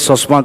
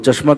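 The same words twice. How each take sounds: First: The word begins with an 's' sound. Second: The word begins with a 'ch' sound. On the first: "চশমা কয়" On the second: "চশমা ক'লে"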